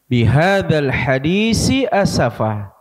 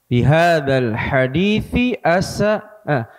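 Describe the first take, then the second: First: Both words use an s sound. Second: Both words use a th sound. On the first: "Jangan sampai sama-sama entah dibaca tha atau dua-duanya dibaca sa" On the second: "Atau dua-duanya dibaca tha"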